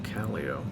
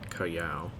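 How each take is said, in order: First: The name is said the local Utah way. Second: The name is said the Peruvian way. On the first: This is how the Utah town is named. "it's not pronounced the same" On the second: This is how the town in Peru is named. "which should have been Callao"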